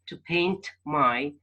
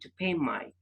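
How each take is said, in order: First: The N and T of paint are fully pronounced. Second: The N is dropped and the T merges into m. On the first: "instead of saying" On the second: "the N is missed out and T is said like P"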